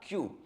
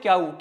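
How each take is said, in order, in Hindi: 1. इस अक्षर का अंत 'oo' स्वर से होता है। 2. इस अक्षर का अंत 'ow' स्वर से होता है। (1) "क्याऊ नहीं होता, क्यू" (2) "इसको क्याऊ मत बोला करो भाई।"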